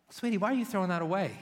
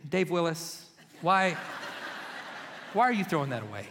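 First: Sweet wife. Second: Stern wife. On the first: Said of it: "she was like". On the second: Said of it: "Or more, she said". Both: Retold or imitated.

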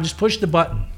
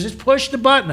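First: Said in the usual way. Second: High, pushed repeat of "Just push the button"; insisting. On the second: Retold or imitated. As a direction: say "Just push the button" again, higher and firmer.

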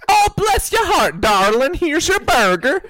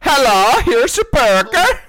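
First: High, gushing, doting burger lady; sweet burger lady. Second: High, loud mock-Swedish accent; slow singsong Swedish caricature. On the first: Retold or imitated. Burger lady serving a late-night customer, sweetly gushing. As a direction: fuss over the customer, drawn-out and high. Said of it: "where they're nice to me". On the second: Burger lady greeting a customer, in a hammed-up Swedish accent. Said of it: "fucking Swedish".

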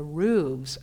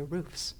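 First: Voiced v-z ending on "roofs"; "roofs" ending in a buzzing VZ. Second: Voiceless FS closing "roofs"; "roofs" ending on a hissed fs, no v. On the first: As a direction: say "roofs" as "rooves". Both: Real, not acted. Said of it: "Is it roofs or roofs?".

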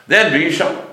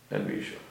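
First: THEN V'YISHAMA pitched high and punched; emphatic exclamation. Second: Very soft repeat, almost to oneself; hushed echo. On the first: Teacher driving home "then v'yishama", emphatic. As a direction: hit "then" hard, v'yishama lifted high. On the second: Teacher echoing his point to the class, hushed. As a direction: let it drop right down low in volume. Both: Real, not acted.

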